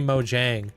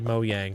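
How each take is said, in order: First: The middle consonant is a J sound. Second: The middle consonant is a Y sound. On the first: This is a Canadian way of saying it. The speaker calls it wrong. "that's the very Canadian way of saying it" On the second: This is how it is said in Sweden. The speaker calls it right. "the J in uh, in Sweden is is a a yuck sound"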